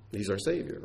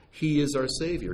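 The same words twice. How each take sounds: First: Said in the usual way. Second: "He" lifted higher and hit first; stress on HE. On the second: Shown as a demonstration. Preacher insisting to the congregation that He alone saves, stress on "He". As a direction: lean hard on "He", the rest falling away. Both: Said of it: "You understand the emphasis?".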